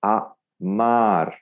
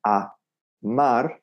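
First: "a mar" slowly, with "mar" held longer; stress on mar. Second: "a mar" in two separated, evenly weighted syllables. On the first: Teacher shows subtle emphasis, "a mar" with longer "mar". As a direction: lengthen "mar" a little, keep "a" a full ah. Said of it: "just a little bit more on the mar". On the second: Teacher gives the starting version, "a... mar" with equal weight. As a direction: leave a gap between "a" and "mar", no emphasis. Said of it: "kept the syllables as consistent as possible". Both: Shown as a demonstration.

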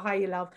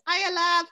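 First: Soft low Welsh accent "Hiya, love"; quiet attempt at a Welsh accent. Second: Bright high-pitched Welsh "Hiya, love"; high Welsh neighbour greeting. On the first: Shown as a demonstration. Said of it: "the only thing I can kind of say properly in a Welsh accent". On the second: Retold or imitated. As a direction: sing it out high like a cheery neighbour. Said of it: "I just know her as the "Hiya, love" woman".

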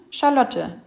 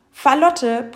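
First: Said in the usual way. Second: "Falotte" with F in place of Sch; speech slip, initial F in "Falotte". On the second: A narrator's reading. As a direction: say "Falotte" for Charlotte, loud and higher. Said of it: "Ich hab ganz fäustliche Zähne".

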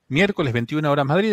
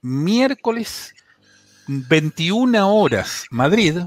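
First: Said in the usual way. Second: Veintiuna horas Madrid stretched out slowly, each word weighted; announcing the hour deliberately over music; slow emphasis. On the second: Shown as a demonstration. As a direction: spell the time out slowly for listeners.

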